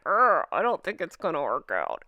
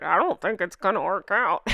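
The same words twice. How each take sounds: First: Opening "Urgh" groaned in disgust, then a scornful sneer. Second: Hushed and confiding, like passing on gossip; secretive hush. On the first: Shown as a demonstration. Vlogger showing viewers the face she makes, with a disgusted groan. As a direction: groan "Urgh" like you smell something bad, then sneer the rest. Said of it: "I like making that". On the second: Real, not acted. Vlogger confiding a royal rumour to viewers, hushed and secretive. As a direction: tell it like a secret only the viewer should hear. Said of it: "It's like it's a secret".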